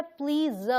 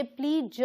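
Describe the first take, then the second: First: प्लीज said cleanly as "pleez", one syllable; correct please. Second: प्लीज mispronounced as "pleeja" with an added vowel; wrong please. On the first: Teacher to Hindi learners, showing the right प्लीज. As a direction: say प्लीज as plain English "pleez". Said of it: "ध्यान रखें ये है प्लीज". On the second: Teacher to learners, showing the wrong प्लीज. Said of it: "ये प्लीज नहीं है". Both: Shown as a demonstration.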